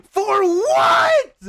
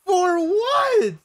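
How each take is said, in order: First: High, loud what; baffled shout. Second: Said in the usual way. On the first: Real, not acted. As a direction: yell it in disbelief. Baffled by chat request.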